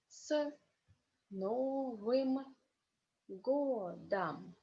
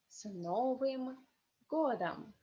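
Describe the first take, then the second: First: The phrase is said slowly. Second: The phrase is said faster. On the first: "First is slowly" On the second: "second time is more fast"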